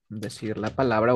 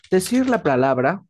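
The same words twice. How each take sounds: First: Said in the usual way. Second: DECIR LA PALABRA pushed higher and a little louder; louder for stress. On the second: Shown as a demonstration. Teacher showing student what stress means, said stronger and higher. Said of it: "más fuerte".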